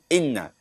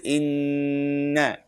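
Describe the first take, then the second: First: The nasal n sound is short and clipped. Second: The nasal n sound is held for two counts. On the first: The speaker calls it wrong. "do not say inna" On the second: The speaker calls it right. "It's inna. Like two seconds"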